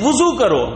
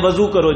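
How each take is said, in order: First: The first syllable has a 'u' vowel. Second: The first syllable has an 'a' vowel. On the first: The speaker calls it right. "वाव पे पेश" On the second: The speaker calls it wrong. "हम अमूमन बोलते हैं"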